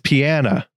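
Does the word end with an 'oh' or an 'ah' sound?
ah. It ends with an 'ah' sound, Memphis-style.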